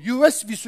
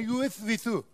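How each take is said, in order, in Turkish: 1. Ortadaki ünsüz 'sh' sesidir. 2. Ortadaki ünsüz 's' sesidir. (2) "Bilal s'yi söyleyemedi, s derdi"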